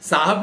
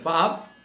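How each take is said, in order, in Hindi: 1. शब्द की शुरुआत s ध्वनि से होती है। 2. शब्द की शुरुआत f ध्वनि से होती है। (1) "साहब नहीं बोल पाते" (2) "वो फाहब बोलते हैं"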